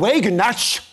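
The name is said with an American accent. "die Amerikaner sagen Wagenknecht"

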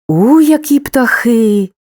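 The voice sounds surprised and astonished. The speaker did not expect this. "здивування"

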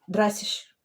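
The word ends with a sh-like sound. This is how Berliners say it in dialect. "Вони кажуть «драйсіш»... Вони постійно оце «ш-ш-ш»"

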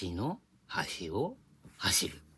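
It is said with a Kanto pitch accent. "横浜弁で言うと"

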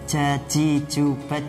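The j is said with breath escaping. The speaker calls it wrong. "dengan keluar nafas dengan sifat hamas"

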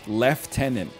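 It is said in a British accent. "in England"

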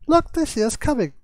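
It is said in a put-on character voice.

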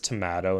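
The word is said with a British accent. This is the parent's British-influenced way of saying it. "my dad says tomato"

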